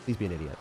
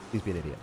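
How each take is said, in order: Both takes have the same delivery.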